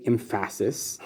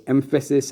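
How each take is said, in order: First: "emphasis" as em-FASS-is; wrong stress. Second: Said in the usual way. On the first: Shown as a demonstration. Teacher showing what you can't say, "emphasis" with misplaced middle stress. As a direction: lean on the middle syllable of "emphasis". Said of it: "you can't say emphasis". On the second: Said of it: "You have to say emphasis".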